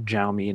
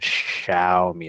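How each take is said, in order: First: The word does not begin with 'sh'. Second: The word begins with a 'sh' sound. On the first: The speaker calls it wrong. "not Xiaomi" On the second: The speaker calls it right. "S H"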